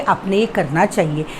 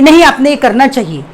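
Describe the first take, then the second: First: It is said in a polite, soft tone. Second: It is said in a rude, blunt tone.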